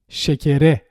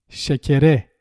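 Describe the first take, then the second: Both takes have the same delivery.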